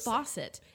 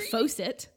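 First: The first vowel is an 'aw' sound. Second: The first vowel is not an 'aw' sound. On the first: The speaker calls it right. "It's Fawcett. AU says" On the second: The speaker calls it wrong. "You don't say Fawcett"

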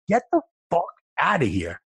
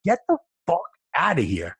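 First: It is said forcefully with an angry tone. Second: The same.

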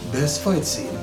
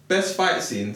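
First: It is said in a put-on announcer voice. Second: It is said in an ordinary speaking voice.

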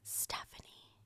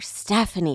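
First: The name is whispered very quietly. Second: The name is said loudest of all.

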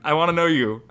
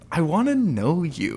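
First: It is said in the speaker's normal voice. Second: It is said in a put-on character voice.

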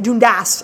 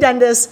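First: The name is pronounced the Scottish way. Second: The name is pronounced the American way. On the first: This is how the name is said in Scotland. "Apparently they say it Dundas in Scotland" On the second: This is how the name is said at home. "So it's Leigh Dundas"

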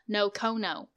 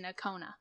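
First: The name ends in an 'oh' vowel sound. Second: The name ends in an 'ah' vowel sound. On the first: The speaker calls it wrong. "I was putting O's everywhere" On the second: The speaker calls it right. "The guy in the video says Nakona"

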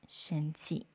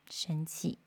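First: It is said in a soft, gentle tone. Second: It is said in a soft, gentle tone.

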